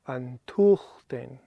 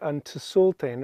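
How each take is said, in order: First: The T replaces the S sound entirely. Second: An S sound is heard after the T. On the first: The speaker calls it right. "So the T sound takes over from the S" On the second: The speaker calls it wrong. "We're not saying Antusulten or anything like that"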